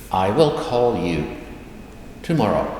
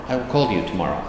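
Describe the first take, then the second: First: Word by word, pause before the last word; careful translation. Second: Said in the usual way. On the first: Shown as a demonstration. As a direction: spell it out for learners, with a break. Teacher translates slowly, then repeats.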